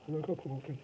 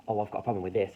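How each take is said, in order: First: High-pitched mocking parrot voice; mocking imitation. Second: Said in the usual way. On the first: Arguer mocking how the opponent speaks, high mocking voice. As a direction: mimic them mockingly, pitched right up. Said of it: "you mock the way they speak". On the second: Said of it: "So if someone goes".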